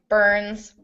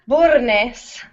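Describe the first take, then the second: First: It is said the English way, one syllable. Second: It is said the Spanish way, more syllables.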